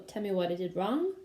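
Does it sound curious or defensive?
curious. It sounds curious and inquisitive. The speaker genuinely wants to hear the criticism. The speaker calls it right.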